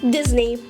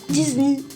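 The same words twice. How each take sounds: First: The name is said with an English pronunciation. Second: The name is said with a French pronunciation. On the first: "İngilizce" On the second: "Fransızca"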